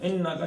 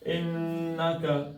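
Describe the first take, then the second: First: The n sound is cut short. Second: The n sound is held long. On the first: The speaker calls it wrong. "इन्ना का नहीं पढ़ना" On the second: The speaker calls it right. "इन्ना का नून को खींचना"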